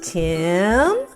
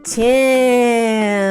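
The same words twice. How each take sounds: First: The word is said a little faster. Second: The word is stretched out long and slow.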